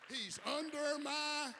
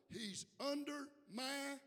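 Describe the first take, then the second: First: High, slow, forceful repeat; loud cueing call. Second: "He's under my" slow and high, left hanging; cueing call. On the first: Preacher demanding church finish the line, loud call. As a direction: belt it out and leave it hanging. Repeats cue louder after "what?. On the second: Preacher prompting church to finish, "He's under my" held open. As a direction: stretch "under my" as a raised prompt. Cues congregation to finish the line. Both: Real, not acted.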